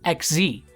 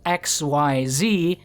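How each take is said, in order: First: It is said as a single word. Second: It is spelled out letter by letter. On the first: The speaker calls it right. "it's pronounced X Z" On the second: The speaker calls it wrong. "It is written as X Y Z, but of course, no one with self-respect calls them that"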